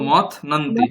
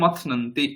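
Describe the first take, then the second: First: The word is split into two parts with a break. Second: The word is said smoothly as one unit. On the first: "ভেঙে ভেঙে বলো" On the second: "জুড়ে দিলে মথনন্তি"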